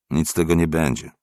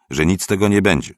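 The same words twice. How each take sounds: First: Said in the usual way. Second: "nic z tego nie będzie" pushed louder, higher and quicker; insistent refusal. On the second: A narrator's reading. („nic z tego nie będzie” z naciskiem, głośniej, wyżej i szybciej)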